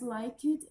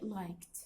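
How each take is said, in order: First: The ending is said as an extra syllable. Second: The e is silent, one syllable. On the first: The speaker calls it wrong. "if you read it as like it, then it is wrong" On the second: The speaker calls it right. "We don't pronounce e, so it will be liked"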